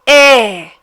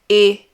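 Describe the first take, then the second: First: The vowel is open, with the mouth wide. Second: The vowel is closed, with the mouth narrower. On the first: "E is also an open sound" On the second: "you'll have to pronounce it as a closed sound"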